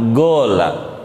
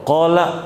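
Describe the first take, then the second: First: The word begins with a g sound. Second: The word begins with a q sound. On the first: This is how Yemenis say it. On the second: This is the standard Arabic form.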